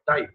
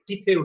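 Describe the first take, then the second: First: Said as one syllable, like 'tie'. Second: Said with two syllables, like 'titeh'. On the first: The speaker calls it right. "ফরাসি দিক থেকে এটা হবে টাই" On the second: The speaker calls it wrong. "টিতে উচ্চারণ করে অনেকে। এটাও কিন্তু ভুল উচ্চারণ"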